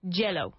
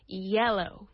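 First: The word begins with a J sound. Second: The word begins with a Y sound. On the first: The speaker calls it wrong. "they say" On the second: The speaker calls it right. "We need to treat it with the sound of an I"

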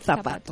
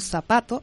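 First: It is said in a Spanish accent, with th. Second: It is said in a Mexican accent, with s.

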